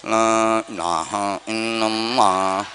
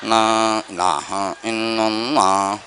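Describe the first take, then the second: Both takes have the same delivery.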